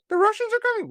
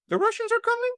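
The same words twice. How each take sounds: First: Much higher, put-on voice, falling, stating it; mock alarm. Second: Much higher, put-on voice asking with a rise on are; mock alarm. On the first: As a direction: announce the doom in a silly high voice. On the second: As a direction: squeak it like a panicked doom-monger asking. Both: Mocking the Russian Scare.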